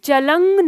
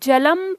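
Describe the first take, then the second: First: The word ends with an ng sound. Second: The word ends with an m sound. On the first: The speaker calls it wrong. "जलंग नहीं" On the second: The speaker calls it right. "जलम पढ़ते हैं"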